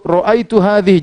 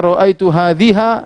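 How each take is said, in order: First: The last word ends in an i vowel. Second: The last word ends in an a vowel. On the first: The speaker calls it right. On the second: The speaker calls it wrong.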